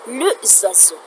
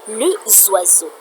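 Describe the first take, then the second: No difference in how they are said.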